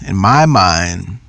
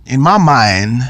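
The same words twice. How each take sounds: First: "in my mind" said slowly and lower; slow emphasis. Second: Said in the usual way. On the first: Shown as a demonstration. Speaker to audience, repeating the phrase slowly for emphasis. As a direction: drag out "in my mind" for weight.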